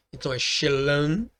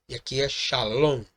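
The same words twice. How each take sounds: First: "shalom" said "she-lan" with a reduced first vowel; Aramaic shalom. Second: "shalom" with a full open "sha"; Hebrew shalom. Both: Shown as a demonstration.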